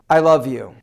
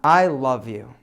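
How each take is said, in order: First: It sounds flat and unconvincing. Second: It sounds warm and deeply heartfelt.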